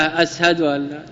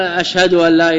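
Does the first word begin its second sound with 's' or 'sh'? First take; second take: s; sh. First: The first word is said with an 's' sound. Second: The first word is said with a 'sh' sound. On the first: "يجعل الشين سينا" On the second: "يجعل الشين سينا"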